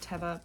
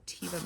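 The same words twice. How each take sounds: First: Teva said TEV-uh, short first vowel; official pronunciation. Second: Teva said TEE-vuh, long first vowel; habitual pronunciation. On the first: Seller citing the proper brand name, Teva as TEV-uh. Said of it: "I know it's pronounced Teva". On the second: Seller admitting a lifelong habit, Teva as TEE-vuh. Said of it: "I've said Teva my entire life". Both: Shown as a demonstration.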